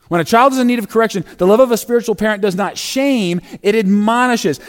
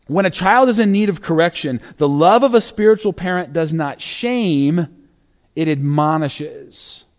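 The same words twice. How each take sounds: First: Put-on fast, lifted run-through of "When a child is in need of correction"; quick restatement. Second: Deliberate reading. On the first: Pastor restates the principle quickly and higher, a brisk recap. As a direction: rattle it off briskly the second time. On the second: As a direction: weigh each word, slowing at the end. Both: Shown as a demonstration. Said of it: "repeated faster".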